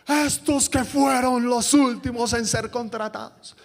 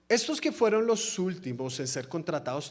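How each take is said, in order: First: It is said in an indignant, protesting tone. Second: It is read in a calm, plain tone. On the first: The speaker calls it right. "sino es como de... Protesto, protesto, protesto" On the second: The speaker calls it wrong. "en ese tono no se puede decir"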